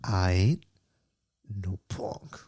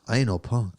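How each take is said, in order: First: It is said more slowly. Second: It is said at normal speed.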